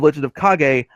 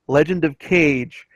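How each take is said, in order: First: The last word does not sound like 'cage'. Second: The last word sounds like English 'cage'. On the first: The speaker calls it right. "instead of Legend of Kage" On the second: The speaker calls it wrong. "game mispronunciations"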